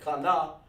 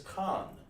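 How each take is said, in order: First: The word is said with two syllables. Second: The word is said as one syllable. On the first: The speaker calls it wrong. "You don't say Kana" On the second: The speaker calls it right. "it's Khan. That's just one sound"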